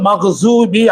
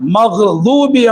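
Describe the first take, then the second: First: The middle consonant is a z-like sound. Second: The middle consonant is a heavy d-like sound. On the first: The speaker calls it wrong. "தாதுங்கிற எழுத்தை ஜாதுன்னு உச்சரிப்பாங்க" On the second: The speaker calls it right. "தாதுங்கிற எழுத்தை"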